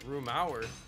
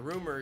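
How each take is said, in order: First: The second syllable has an 'ow' sound. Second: The second syllable has a plain 'er' sound. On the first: "you don't pronounce it rumauer" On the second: "you don't pronounce it rumauer"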